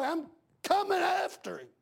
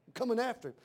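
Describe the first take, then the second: First: High, ringing threat on coming; preaching cry. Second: Said in the usual way. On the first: Real, not acted. Father vowing to go after the man who hurt his boy, high cry. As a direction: fling it out high and hard.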